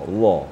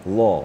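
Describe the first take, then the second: Both takes have the same delivery.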